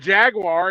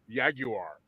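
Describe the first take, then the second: First: The word starts with a J sound. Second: The word starts with a Y sound. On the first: The speaker does not own one. "it's a Jaguar until you own one" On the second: The speaker owns one. "Like the J turns to a Y"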